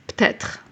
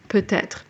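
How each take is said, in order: First: Part of the word is dropped, said quickly. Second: Every syllable of the word is fully pronounced.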